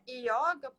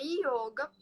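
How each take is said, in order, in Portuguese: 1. A primeira vogal é um O aberto. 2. A primeira vogal é um O fechado. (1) "não é yoga" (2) "O correto mesmo é yoga... só existe o O fechado"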